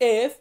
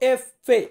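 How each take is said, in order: First: The letter is said as one short syllable. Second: The letter is said as two syllables, ending in -e. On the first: This is the everyday local way of naming the letter. "আমরা বলি কিন্তু এফ" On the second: This is the Italian way of naming the letter. "এটার উচ্চারণ আমরা করব এফ ফে"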